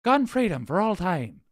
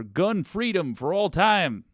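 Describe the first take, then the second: First: Higher-pitched mock Irish voice; hammed-up Irish guy; Irish accent. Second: Drawn-out mock Southern guy, higher pitch; Southern accent. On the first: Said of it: "Fine, he's Irish". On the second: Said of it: "it's always a Southern guy".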